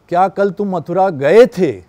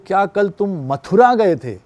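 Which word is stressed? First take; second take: गए थे; Mathura. First: The stress falls on the final verb 'gaye the'. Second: The stress falls on the word 'Mathura'. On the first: It is unclear whether the trip happened at all. "सिर्फ यहाँ पे बोल दिया गए थे" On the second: It asks whether it was this city or another. "वो मथुरा पे stress कर दिया"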